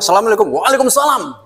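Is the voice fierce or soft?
fierce. It is said in a fierce, curt, stern voice. The woman keeps a man at a distance. The speaker calls it right. "Galak gitu"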